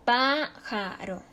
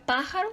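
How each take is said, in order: First: Pájaro slowly split as PÁ-ja-ro; syllable by syllable. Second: Said in the usual way. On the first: Shown as a demonstration. Teacher showing the stressed syllable, pájaro slowly as PÁ-ja-ro. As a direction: break pájaro into slow syllables, first one stressed. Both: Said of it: "su sílaba tónica está en antepenúltima sílaba".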